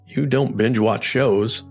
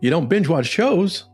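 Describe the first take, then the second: First: It is said in a lower, judging pitch. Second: It is said in a higher, interested pitch.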